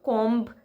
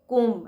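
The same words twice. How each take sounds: First: The final b sound is pronounced. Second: The final b sound is silent. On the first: The speaker calls it wrong. "उसका सही pronunciation कोम्ब नहीं है" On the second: The speaker calls it right. "बल्कि कोम्ब है। ... बी is silent"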